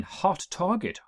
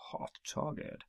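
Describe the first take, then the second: First: Said in the usual way. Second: Hushed, whispered repeat of a title; whispered echo. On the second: Acted. Host echoing an episode title for effect, whispered. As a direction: drop right down into a whisper.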